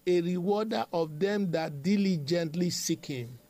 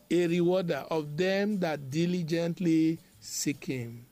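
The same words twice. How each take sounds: First: Said in the usual way. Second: Deliberate emphasis. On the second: Shown as a demonstration. Same scripture repeated for emphasis.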